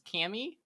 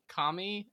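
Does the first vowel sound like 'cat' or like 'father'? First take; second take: cat; father. First: The first vowel is flat, as in 'cat'. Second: The first vowel is open, as in 'father'. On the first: The speaker calls it wrong. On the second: The speaker calls it right.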